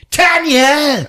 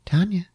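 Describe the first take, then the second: First: High, loud cry of the name; sudden theatrical yell; mock monster shout. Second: Higher, small little call; little faraway-sounding call of the name; teeny tiny voice. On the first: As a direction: holler the name like a hammed-up villain. Cat man calls the victim. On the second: Acted. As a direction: imitate a tiny voice calling out. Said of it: "this teeny tiny little voice".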